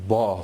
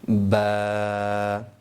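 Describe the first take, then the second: First: The vowel is said in a thick, heavy voice. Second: The vowel is drawn out in a thin voice. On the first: The speaker calls it wrong. "इसकी आवाज़ मोटी नहीं होनी चाहिए। कोई शख्स यूँ ना पढ़े" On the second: The speaker calls it right. "बा खींच के भी पढ़ना है और पतली आवाज़ में भी पढ़ना है"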